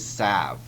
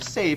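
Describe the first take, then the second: First: The vowel is a short a sound. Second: The vowel is a long a sound. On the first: The speaker calls it wrong. "without the long A sound, I would mispronounce it" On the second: The speaker calls it right. "if I try that long E sound"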